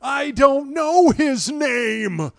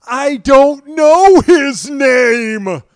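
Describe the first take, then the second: First: High, loud, slow dazed line; Jeff Bridges impression. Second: High, very loud, slow stunned line; dazed Jeff Bridges. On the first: Host doing his limited Jeff Bridges, high, slow and dazed. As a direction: drag it out like a stunned father. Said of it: "That is my limited Jeff Bridges". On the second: Retold or imitated. Father answering the nurse, high, loud and stunned. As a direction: let it drag out in shock. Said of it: "he looks at her and goes".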